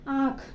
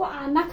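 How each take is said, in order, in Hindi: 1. 'n' सिर्फ़ नाक वाला स्वर है। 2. पूरा 'n' व्यंजन बोला जाता है। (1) "नून की आवाज़ को कहाँ ले जाएंगे? नाक में।" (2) "इसको आनख नहीं बोलेंगे हम"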